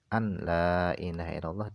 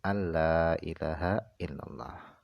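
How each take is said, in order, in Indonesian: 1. Huruf n terdengar jelas sebelum huruf l. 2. Huruf n melebur menjadi bunyi l yang ditasydid. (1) "diidharkan, enggak boleh" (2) "Harus diidghamkan masuk kepada lam"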